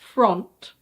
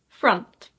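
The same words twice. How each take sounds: First: The vowel sounds like the O in hot. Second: The vowel sounds like the U in cup. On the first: The speaker calls it wrong. "I know it looks like front" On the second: The speaker calls it right. "the O here is actually pronounced A"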